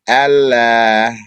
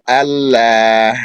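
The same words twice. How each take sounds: The two takes are said the same way.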